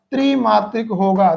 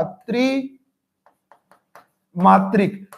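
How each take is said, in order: First: Said in the usual way. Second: त्रिमात्रिक stretched very slowly; drawn-out demo. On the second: Shown as a demonstration. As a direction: draw out त्रिमात्रिक, holding each sound long. (त्रिमात्रिक को बहुत खींचकर धीरे बोलना)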